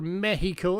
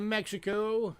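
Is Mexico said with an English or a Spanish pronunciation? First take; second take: Spanish; English. First: It is said with a Spanish pronunciation. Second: It is said with an English pronunciation.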